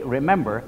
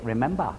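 First: It is said in the speaker's own accent. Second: It is said in a New England accent.

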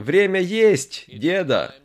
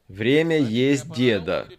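First: It is said with a pause before the last word. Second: It is said without a pause before the last word. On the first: Grandpa is told it is time to eat. "После слова «есть» поставьте что? Запятую" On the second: Grandpa is the one to be eaten. "Посмотрите на название нашей темы сегодня"

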